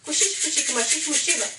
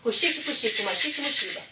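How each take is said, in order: The two takes are said the same way.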